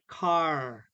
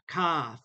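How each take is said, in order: First: The word ends with a clear R sound. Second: The word ends on the vowel, with no R. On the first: "American English makes the R sound" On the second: "British and Australia say sta, ka, fa. They do not make the R sound"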